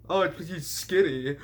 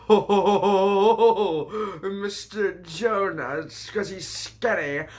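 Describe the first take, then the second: First: Said in the usual way. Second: Slow, stretched, high goofy character voice; drawled mocking retake of the punchline; silly put-on voice. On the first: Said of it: "repeated in funny voice". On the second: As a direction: ham it up like a cartoon sidekick.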